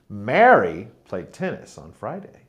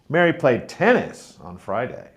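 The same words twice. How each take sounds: First: The word Mary is stressed. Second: The word tennis is stressed. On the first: It was this person and not someone else. "it was Mary who played tennis, not Peter" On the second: It was this sport and not another. "Mary played tennis on Friday, not football"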